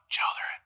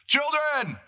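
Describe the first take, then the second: First: The word is said at normal volume. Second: The word is yelled loudly. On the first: The caller is close by. The speaker calls it wrong. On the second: The caller is far away across the water. The speaker calls it right. "he's going this"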